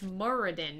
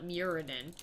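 First: The name is said without an extra i sound. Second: The name is said with an extra i sound. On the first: The speaker calls it right. "It's Muradin" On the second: The speaker calls it wrong. "there's no I there"

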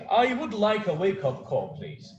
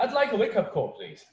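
First: I would is said as two full words. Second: I would is contracted into one quick syllable. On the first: The speaker calls it wrong. "Fica meio robotizado" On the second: The speaker calls it right. "Eles falariam I'd like. Porque é mais rápido"

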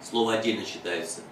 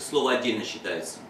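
The two takes are said the same way.

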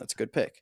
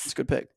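First: The voice sounds surprised. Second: The voice sounds sincere and unsurprised. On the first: The pick was not expected to be a good one. The speaker calls it wrong. "the tone of voice you use when you sound surprised" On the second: The pick is genuinely approved. The speaker calls it right. "let's try that again"

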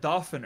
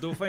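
First: The name is said with an English pronunciation. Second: The name is said with a French pronunciation. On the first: "you said Dauphin earlier" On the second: "I'm going to say Dauphin because Dauphin is an actual French word"

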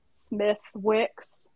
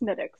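First: The name is said with a clear 'w' sound. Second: The name is said without any 'w' sound. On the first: This is how some Americans say it. The speaker calls it wrong. "Some people in the United States would call Smittix Smith Wicks" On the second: This is the proper way to say it. The speaker calls it right. "but it's Smittix"

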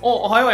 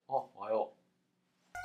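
First: The greeting sounds cheerful and bright. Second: The greeting sounds flat and sullen. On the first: The boss is in a good mood. "機嫌良かったら、おはよう山田君って言うんですよ" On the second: The boss is in a bad mood. "でも機嫌悪かったらね…こうやって。"

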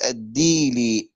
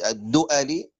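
First: No glottal stop; di runs straight into li. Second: A glottal stop with a short a follows du.

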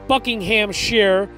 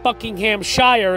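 First: The place name is said the local British way. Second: The place name is said the speaker's American way. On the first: This is how the name is properly said. The speaker calls it right. "I think it's Buckinghamshire" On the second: This is how an outsider would say the name. The speaker calls it wrong. "not Buckinghamshire, as I would say"

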